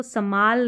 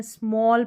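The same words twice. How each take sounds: First: समाल as two syllables, "sa-maal"; full "sa", then long "aa" in समाल; wrong reading of small. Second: स्मॉल in one syllable, half s straight into m; correct reading of small. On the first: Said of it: "इसको समाल नहीं पढ़ते हैं". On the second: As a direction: say स्मॉल with joined "sm" and an open "aw". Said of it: "पढ़ते हैं". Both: Shown as a demonstration.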